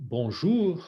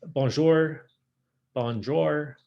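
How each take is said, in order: First: Drawn-out Parisian bonjour, tight "ou" vowel; French bonjour. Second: Bonjour with an open American "jor" ending; English-speaker's bonjour, rhyming with "door"; Americanized bonjour. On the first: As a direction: round the lips into an O for bonjour. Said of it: "is all in the mouth". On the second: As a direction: say bonjour with a slack jaw and hard American R. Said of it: "the difference between bonjour". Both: Shown as a demonstration.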